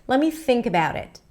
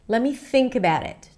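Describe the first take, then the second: Both takes have the same delivery.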